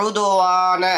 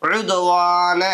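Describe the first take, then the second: No difference in how they are said.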